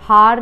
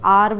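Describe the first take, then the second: First: The word begins with an H sound. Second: The word begins with a vowel sound. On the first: The speaker calls it wrong. "हार नहीं बोलते" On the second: The speaker calls it right. "आर बोलते हैं"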